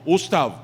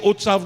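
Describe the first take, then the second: First: The s sound comes before the t. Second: The t sound comes before the s. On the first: The speaker calls it wrong. "calling it Ganesh Ustav" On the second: The speaker calls it right. "He can't say Utsav no how"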